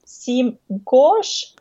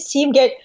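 First: Gauge is said with a French-like sound. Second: Gauge is said with a plain English sound. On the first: "Seam gauge, og litt fransk" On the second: "Du sier seam gauge"

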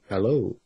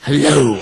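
First: It is said quietly and reserved. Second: It is said loudly and boldly.

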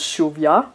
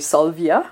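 First: The name begins with an sh sound. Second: The name begins with an s sound. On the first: The speaker calls it right. "It's actually pronounced as Shovia" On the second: The speaker calls it wrong. "Most people say Salvia"

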